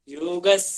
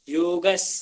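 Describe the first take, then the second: No difference in how they are said.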